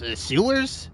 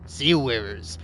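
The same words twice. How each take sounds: First: "sewers?" with a rising questioning tune; "sewers?" pitched up as if unsure. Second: "Sewers." settled with a firm falling tune; "Sewers." stated flatly with a downward fall. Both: Shown as a demonstration. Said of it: "I can say words however I like".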